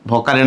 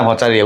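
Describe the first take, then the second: First: ভকারিয়া with a hard k in the middle; k sound variant. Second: ভচারিয়া with a ch in the middle; ch sound variant. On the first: Teacher unsure of the term for students, trying ভকারিয়া with a k sound. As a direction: say ভকারিয়া as "bhokaria". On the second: Teacher unsure of the term for students, trying ভচারিয়া with a ch sound. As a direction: say ভচারিয়া as "bhocharia". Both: Shown as a demonstration. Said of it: "উচ্চারণ আমি বললাম".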